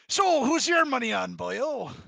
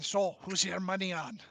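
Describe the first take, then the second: First: It is said in a put-on pirate voice. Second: It is said without a pirate voice.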